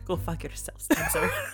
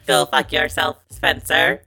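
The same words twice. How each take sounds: First: It is said in a put-on foreign accent. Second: It is said in a flat robot voice. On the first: "I want you to do it like Mandy Patinkin in Princess Bride" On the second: "Do it like a robot"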